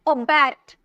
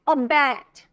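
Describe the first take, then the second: No difference in how they are said.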